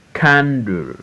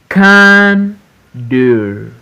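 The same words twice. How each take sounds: First: Said in the usual way. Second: CAN held high, pause, DLE; syllable by syllable. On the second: Shown as a demonstration. Teacher reading for pupils to repeat, Candle broken as CAN-DLE. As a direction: Candle split into two drawn-out beats. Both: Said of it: "we are in two syllables word".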